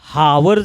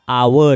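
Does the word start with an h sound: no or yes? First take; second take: yes; no. First: The word begins with an h sound. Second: The word begins with a vowel sound. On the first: The speaker calls it wrong. "हावर जर म्हणलात तर चुकलं" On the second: The speaker calls it right. "त्याचा उच्चार आवर आहे"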